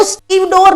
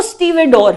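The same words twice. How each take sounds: First: स्टीव डोर split into Steve and door; wrong pronunciation. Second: स्टीवेडोर as one word in three syllables, stee-ve-dor; correct pronunciation. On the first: Teacher rejecting the students' misreading, wrong pronunciation. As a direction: say स्टीव डोर as two syllables, no vowel after v. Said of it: "but वो स्टीव डोर नहीं है". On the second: Teacher correcting students' reading of the word, correct pronunciation. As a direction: sound the middle vowel after v in स्टीवेडोर. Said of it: "वो स्टीवेडोर है". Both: Shown as a demonstration.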